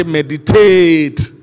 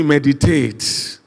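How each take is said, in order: First: Slow, drawn-out loud shout. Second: Said in the usual way. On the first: Shown as a demonstration. Preacher showing the congregation how to say it, loud shout. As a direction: shout it loud, stretching the last syllable. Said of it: "No, shout it loud and say". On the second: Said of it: "No, shout it loud".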